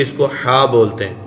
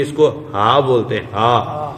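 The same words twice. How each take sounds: First: ہا said with throaty Arabic ح; name the letter ہا from mid-throat; halwa's h. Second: ہا with a light glottal h; two-eyed h. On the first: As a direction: stress ہا with pharyngeal friction. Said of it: "حلوے والی ہوتی ہے". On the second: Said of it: "یہ یہاں سے نکلتی ہے". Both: Shown as a demonstration.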